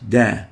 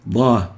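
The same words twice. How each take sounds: First: Da with a light front d; da said thin at the front of the mouth; plain dal. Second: Da with a heavy, backed d; emphatic dad. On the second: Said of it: "not da". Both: Shown as a demonstration.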